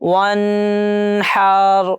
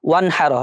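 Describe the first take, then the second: First: The n is nasalized and held long. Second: The n is said clearly and quickly. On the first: The speaker calls it wrong. "এখানে তো আমরা একটা গুন্না করতে পারি, ওয়ানহার এইভাবে তো উচ্চারণ করতে পারি, এটা কিন্তু একদম ভুল।" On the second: The speaker calls it right. "ওয়ানহার হবে, কারণ এখানে ইজহার আছে।"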